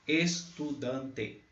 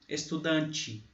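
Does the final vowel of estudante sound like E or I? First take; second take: E; I. First: The final vowel sounds like E. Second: The final vowel sounds like I. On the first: "você lê estudante" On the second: "é falado estudante"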